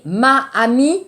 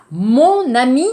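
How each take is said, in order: First: MA and AMIE kept apart, two A sounds meeting; no linking consonant in "ma amie"; wrong vowel clash. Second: MON linked into AMI with a sounded N; liaison before vowel. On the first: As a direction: say "ma amie" with both vowels separate. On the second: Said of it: "Le problème aussi phonétique". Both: Shown as a demonstration.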